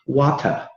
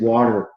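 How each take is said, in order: First: The final R is dropped, British style. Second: The final R is pronounced, American style.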